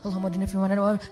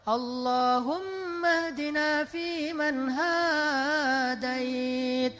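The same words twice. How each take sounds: First: It is said fast and rushed. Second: It is said slowly and relaxed.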